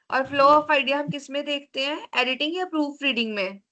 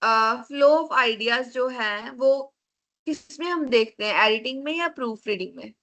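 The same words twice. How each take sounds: First: Said in the usual way. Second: Flow of ideas drawn out slowly, then the choice asked quickly; teacher repeats the question for a student who missed it, slowly at first; slower repeated question. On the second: Real, not acted. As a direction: stretch out flow of ideas so the class catches it. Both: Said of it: "question क्या था ma'am?".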